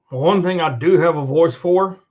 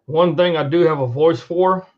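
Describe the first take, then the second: No difference in how they are said.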